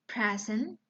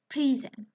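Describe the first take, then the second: First: "Present" as the noun, PREZ-ent; short e in "Present", stressed at the front; stress on first syllable. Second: "present" as the verb, pree-ZENT, higher and louder; long ee in "present", verb pronunciation; stress as verb. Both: Shown as a demonstration. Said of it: "the next example".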